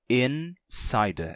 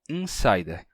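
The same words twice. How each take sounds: First: The first vowel is oral, separate from N. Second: The first vowel is nasalized. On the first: This is how English speakers say it. "Em inglês não seria assim, né? Ficaria insider. ... O N é separado do I" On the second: This is how Portuguese speakers say it. "Em português, entretanto, a gente diz in, insider, com I nasal"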